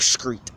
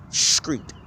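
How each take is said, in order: First: "street" said as "skreet", with a k sound after the s; slang skreet. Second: Said in the usual way. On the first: Shown as a demonstration. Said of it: "There's no C in that word". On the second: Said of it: "There's no C, there's no A, H in the word street".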